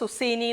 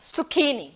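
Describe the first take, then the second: First: The middle consonant is an 's' sound. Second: The middle consonant is a 'k' sound. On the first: The speaker calls it wrong. "സുസീനി എന്നൊക്കെ പറയുന്നത് കേൾക്കാറുണ്ട്" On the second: The speaker calls it right. "പക്ഷെ ഇത് സുക്കീനി ആണ്"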